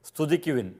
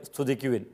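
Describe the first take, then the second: No difference in how they are said.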